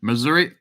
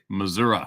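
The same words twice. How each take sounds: First: Missouri ending in a clear EE, mi-ZOO-ree, slight rise. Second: Missouri ending in UH, mi-ZOO-ruh, lower. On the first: Streamer reading a viewer's state to chat, standard ending. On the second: Streamer giving chat the local pronunciation, lower. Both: Shown as a demonstration. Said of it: "everybody called it Missouri".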